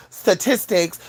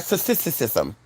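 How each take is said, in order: First: Said in the usual way. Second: "Statisticism" with the s-syllables stuttered over, low and soft; extra syllables. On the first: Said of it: "it'll be like". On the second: Shown as a demonstration. Reader botching "statistics", garbled extra-syllable "Statisticism". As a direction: trip over the repeated sounds in "Statisticism". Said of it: "you'll add too much shit".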